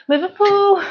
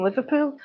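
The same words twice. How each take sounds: First: High, loud mock Scouse; attempted Liverpool accent. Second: Said in the usual way. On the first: Shown as a demonstration. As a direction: have a failed go at Scouse, loudly. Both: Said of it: "Can't get the accent".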